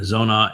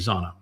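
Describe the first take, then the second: First: The first vowel sounds like 'oh'. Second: The first vowel sounds like 'ah'. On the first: This is the common modern pronunciation. "the more common Hebrew pronunciation now" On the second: This is the older pronunciation. "the older version would be Zana"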